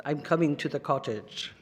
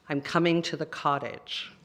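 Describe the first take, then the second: First: Light Russian accent, lower. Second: Said in the usual way. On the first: Shown as a demonstration. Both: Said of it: "if I say it in a Russian accent".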